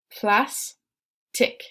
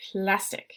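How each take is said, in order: First: "Plastic" stretched with a rising end; "Plastic" as a slow rising model; drawn-out model word. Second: Said in the usual way. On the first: Shown as a demonstration. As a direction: sound out "Plastic" slowly, lift at the end. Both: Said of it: "let's say it together".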